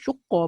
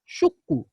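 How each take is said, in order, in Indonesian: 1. Kata ini diakhiri dengan vokal a. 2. Kata ini diakhiri dengan vokal u. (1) "Baca baris atas pun betul" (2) "boleh baca dengan baris depan pun betul"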